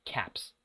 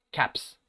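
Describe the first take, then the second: First: "caps" dropped low and soft, final S still hissed; a quiet low "caps" ending in S; plural s sound. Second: "Caps" ending in a voiceless S after the P; plural s sound. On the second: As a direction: close "Caps" on a crisp S. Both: Shown as a demonstration. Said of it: "El plural".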